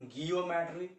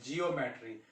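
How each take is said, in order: First: The word begins with a hard g sound. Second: The word begins with a soft j sound. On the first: The speaker calls it wrong. "गियोमेट्री क्यों नहीं बोलते हैं" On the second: The speaker calls it right. "इसको हम लोग क्या बोलते हैं"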